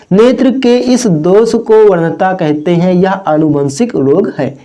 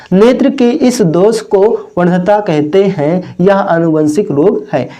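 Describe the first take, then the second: No difference in how they are said.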